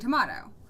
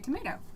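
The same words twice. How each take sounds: First: Tomato is said with a British accent. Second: Tomato is said with an American accent. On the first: "a little left over from having a British accent" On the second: "I've always just heard that in American accent"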